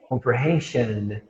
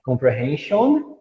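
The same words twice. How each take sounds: First: Slow, softer "comprehension" ending in "shun"; correct "an" ending. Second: Slow, rising "Comprehension" ending in "shon"; wrong "on" ending. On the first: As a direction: let "comprehension" close on a weak schwa. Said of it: "Então fica até mais bonito". ("comprehension" devagar, com final reduzido em "an") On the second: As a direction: lift "Comprehension" into a full, round "on". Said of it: "Olha a diferença de você falar". ("Comprehension" devagar, com "on" no final) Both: Shown as a demonstration.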